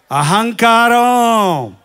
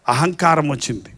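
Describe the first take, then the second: First: అహంకారం drawn out very slowly, falling; slow stress. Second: అహంకారం said much lower and softer; low stress. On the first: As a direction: stretch అహంకారం long and slow. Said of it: "ఏం కారం అండి?". (అహంకారం నెమ్మదిగా సాగదీసి) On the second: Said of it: "ఏ రోగం వచ్చింది తెలుసా?". (అహంకారం తగ్గు స్వరంలో) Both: Shown as a demonstration.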